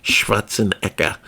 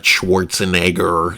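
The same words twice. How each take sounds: First: Schwarzenegger with a German shv, no r, and a hard k; German pronunciation. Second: The usual English Schwarzenegger, w sound and r; American pronunciation. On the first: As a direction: say Schwarzenegger the Austrian way, shvarts-en-ekker. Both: Shown as a demonstration. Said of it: "Yes, I said his name correctly".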